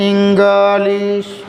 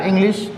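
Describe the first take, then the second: First: इंग्लिश stretched very slowly, the wrong way; इंग्लिश long and dragged, as learners wrongly say it; wrong drawn-out English. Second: Said in the usual way. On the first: Shown as a demonstration. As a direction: drag out इंग्लिश as the mistake to avoid. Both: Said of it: "ऐसा नहीं कि".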